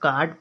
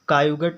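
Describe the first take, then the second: First: The vowel is one long 'aa' sound. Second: The vowel is split as 'a-yu' plus a g sound. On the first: The speaker calls it right. "अब इसको काट पढ़ेंगे" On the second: The speaker calls it wrong. "कायुगट नहीं पढ़ेंगे इसको"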